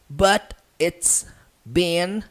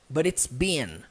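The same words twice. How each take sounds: First: The phrase is said slowly, each word separate. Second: The phrase is said quickly, words run together.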